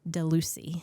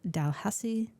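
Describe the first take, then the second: First: The name sounds like 'Delucy'. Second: The name sounds like 'Dalhousie'. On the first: The speaker calls it wrong. "in my head, I pronounced as Delucy. Not how you say it" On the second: The speaker calls it right. "it's Dalhousie Castle"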